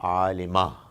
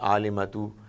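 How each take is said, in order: First: The word ends without a t sound. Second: The word ends with a t sound and vowel. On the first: The word comes at the very end of the sentence. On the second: The word is not at the end of the sentence.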